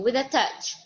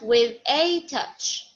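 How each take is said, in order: First: The words 'with a' are quick and unstressed. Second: The words 'with a' are slow and stressed. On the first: The speaker calls it right. "just quickly" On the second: The speaker calls it wrong.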